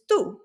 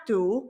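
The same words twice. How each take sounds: First: "tú" short, with the accent's upward inflection; accented tú. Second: "tú" drawn out, without the accent's upward lift; wrong unaccented tú. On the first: Teacher shows beginners the correct way, accented tú. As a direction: lift the voice on "tú" for the accent. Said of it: "going up in the inflection". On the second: Teacher shows beginners the wrong way, unaccented tú. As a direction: say "tú" as if it had no accent. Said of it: "It's not tú". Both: Shown as a demonstration.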